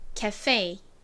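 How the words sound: It is said with American English pronunciation. "진짜 영어식 발음은요. cafe, cafe 이렇게 발음이 납니다"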